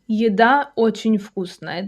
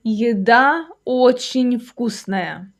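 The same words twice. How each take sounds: First: Said in the usual way. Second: Slow, measured teaching delivery; slow model sentence. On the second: Shown as a demonstration. Teacher giving a food example to learners, slowly. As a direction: draw out each word for learners.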